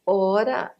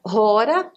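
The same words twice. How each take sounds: First: Said in the usual way. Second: "rora" with an aspirated h at the start; rough breathing. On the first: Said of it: "rora, desculpa". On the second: Shown as a demonstration. Teacher correcting the Greek word, "rora" with aspirated first sound. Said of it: "o espírito rude".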